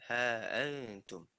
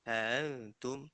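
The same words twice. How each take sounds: First: The glottal stop before antum is fully pronounced. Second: The glottal stop before antum is softened. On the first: "tahqiq dia" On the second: "tashil dia"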